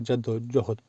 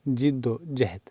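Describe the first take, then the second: First: The first syllable has an 'a' vowel. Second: The first syllable has an 'i' vowel. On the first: It wrongly suggests a grandfather or ancestor. The speaker calls it wrong. "अक्सर लोग इसे जद्दोजहद या जद्दोजहद पढ़ते हैं" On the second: It means effort and striving. The speaker calls it right. "जीम पर ज़ेर"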